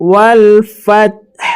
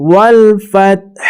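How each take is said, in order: No difference in how they are said.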